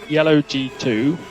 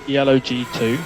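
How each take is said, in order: Both takes have the same delivery.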